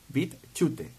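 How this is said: The name is pronounced the Spanish way.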